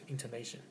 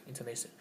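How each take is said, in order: The two takes are said the same way.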